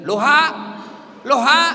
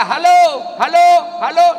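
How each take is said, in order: First: Loud "Loha, loha" with the syllables of halo swapped, rising at the end; halo said backwards. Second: Loud, high halo called out into the receiver; shouting into phone. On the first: Old man shouting halo backwards into an upside-down phone. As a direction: shout "Loha" as if flipping the word fixes the phone. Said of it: "bukan halonya terbalik". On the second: Old man yelling into a phone held upside down. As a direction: holler halo with no one answering. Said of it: "Teriaklah dia". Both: Retold or imitated.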